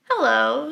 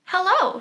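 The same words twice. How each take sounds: First: Lightly voiced friendly wolf saying hello; a hint of the sly wolf greeting the girl. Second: Put-on higher, bright little-girl hello; girl's greeting. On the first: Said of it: "said the wolf". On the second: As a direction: lift the pitch for the little girl. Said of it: "she said".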